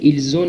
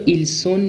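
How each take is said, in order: First: The words are linked with a z sound. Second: The words are linked with an s sound. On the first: The speaker calls it right. "بلکه ایلزون میخونیم" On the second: The speaker calls it wrong. "این رو ایلسون نمیخونیم"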